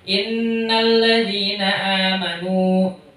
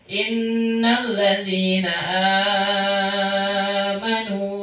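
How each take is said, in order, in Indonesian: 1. Vokal di 'amanu' dibaca pendek. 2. Vokal di 'amanu' dibaca panjang. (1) "boleh baca pendek"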